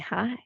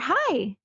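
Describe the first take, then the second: First: It sounds flirtatious and a little sexy. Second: It sounds like greeting someone at the door.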